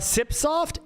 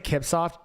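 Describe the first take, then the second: First: The word begins with an S sound. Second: The word begins with a K sound. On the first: "Sipsoft is probably the correct way to say it" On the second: "I say Kipsoft"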